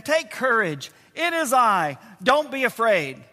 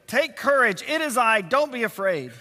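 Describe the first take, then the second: First: Said in the usual way. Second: Three short phrases in quick succession; brisk, urgent reassurance; said quickly. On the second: Shown as a demonstration. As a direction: run the reassurances close together.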